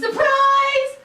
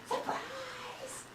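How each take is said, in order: First: It is shouted loudly. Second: It is said very quietly.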